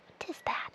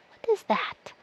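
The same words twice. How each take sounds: First: Breathy secret whisper of the same question. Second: Said in the usual way. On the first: Shown as a demonstration. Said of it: "repeated as a whisper". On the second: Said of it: "What is that? whispered".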